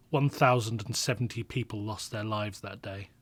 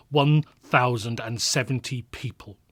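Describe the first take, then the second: First: Said in the usual way. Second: "One thousand and seventy people" spelled out slowly and louder, each word landing; a grim echo of the toll, slower and louder; slow weighty emphasis. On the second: Acted. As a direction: let the number sink in, word by word. Repeating the death toll, heavier.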